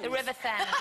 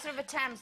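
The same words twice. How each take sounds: First: Thames begins with a TH sound. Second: Thames begins with a hard T sound. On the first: The speaker calls it wrong. "there's an H in it" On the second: The speaker calls it right. "no, it's the River Thames"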